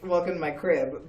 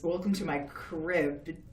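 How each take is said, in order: First: It is said in a cheerful house-tour voice. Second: It is said in a spooky Crypt Keeper voice.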